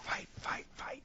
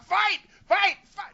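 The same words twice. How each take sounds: First: It is whispered quietly. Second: It is shouted loudly.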